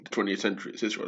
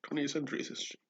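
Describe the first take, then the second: First: Said in the usual way. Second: Higher, quicker mocking echo; mocking repeat. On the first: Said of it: "Like, twentieth century is history". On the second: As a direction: toss the phrase back higher and faster, mocking it. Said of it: "what the fuck are you talking about?".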